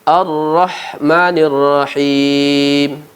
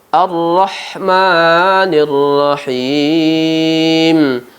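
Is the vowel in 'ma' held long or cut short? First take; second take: short; long. First: The vowel in 'ma' is cut short. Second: The vowel in 'ma' is held long. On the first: "tidak memanjangkan ma" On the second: "Ada ma, mat tabi'i dengan dua harkat"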